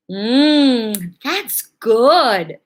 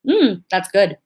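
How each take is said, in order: First: Drawn-out "Mm" then a rising, pleased "that's good"; delighted. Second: Flat, polite "Mm, that's good" with no enthusiasm; unimpressed. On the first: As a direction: savour it like a truly tasty cupcake. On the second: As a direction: say "that's good" as if it's merely okay. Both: Shown as a demonstration. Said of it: "Just the way I said it".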